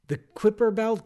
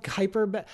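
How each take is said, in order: First: Kuiper said KWIP-er; proper Kuiper. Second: Kuiper said KY-per; old Kuiper. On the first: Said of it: "Kuiper is not the proper modern day pronunciation". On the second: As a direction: Kuiper rhyming with piper, KY-per. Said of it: "I still say Kuiper Belt". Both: Shown as a demonstration.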